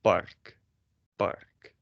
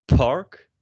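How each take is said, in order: First: "park" with very little air on the p; soft unaspirated Dutch "park". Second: "park" with a strong burst of air on the p; heavily aspirated, louder English "park". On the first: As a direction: hold back the breath on the P of "park". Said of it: "very little air out of your mouth". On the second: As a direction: puff out the P of "park", rising. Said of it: "in English you say". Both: Shown as a demonstration.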